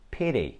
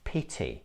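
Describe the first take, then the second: First: The middle T sounds like a soft D. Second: The middle T is a clear T sound. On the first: It sounds American. "you should not pronounce it like D, because this is what Americans do" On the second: It sounds British. "in British English, these words sound like"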